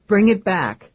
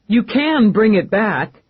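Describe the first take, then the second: First: Said in the usual way. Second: Slow, with "can" pushed hard and loud; stress on can. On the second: Acted. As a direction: lean into "can" as a firm demand. Eve insists, stressing can.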